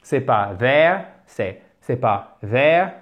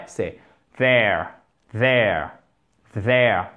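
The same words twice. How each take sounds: First: There with a loose th that lets air out, rising at the end; wrong version. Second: There lower, with the tongue pressed on the upper teeth; correct there. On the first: Teacher shows the wrong there before the right one. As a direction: show the escaping-air mistake in there. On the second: Teacher gives the right there after the wrong one. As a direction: say there firmly three times. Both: Shown as a demonstration. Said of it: "Écoutez bien la différence".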